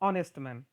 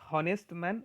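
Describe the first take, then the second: First: The word begins directly with a vowel sound. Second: The word begins with an audible h sound. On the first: The speaker calls it right. "It is ऑनेस्ट man, एच silent है" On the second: The speaker calls it wrong. "It is not हॉनेस्ट man"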